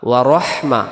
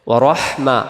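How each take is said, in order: Both takes have the same delivery.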